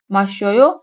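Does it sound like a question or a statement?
question. It has emphasized question intonation. Do you drink? "içiyor musun"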